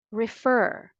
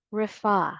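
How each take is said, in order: First: "Refer" as rih-FUR, final r sounded; American pronunciation. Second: "Refer" as rih-FAH, final r dropped; British pronunciation. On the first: Teacher leading say it with me, American "Refer", rih-FUR. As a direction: stress the second syllable of "Refer", keep the r. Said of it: "the second syllable is stressed". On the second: Teacher repeating for learners to follow, British "Refer", rih-FAH. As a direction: stress an open FAH ending in "Refer". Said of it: "if you like the British English pronunciation better". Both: Shown as a demonstration.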